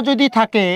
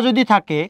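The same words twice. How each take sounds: Both takes have the same delivery.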